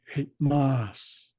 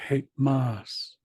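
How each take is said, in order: The two takes are said the same way.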